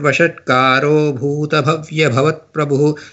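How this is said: The first word runs straight on, ending in -o. The line is recited continuously. "If you are doing it like a continuous thing"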